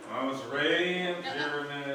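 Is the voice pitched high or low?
low. It is said in a lower voice.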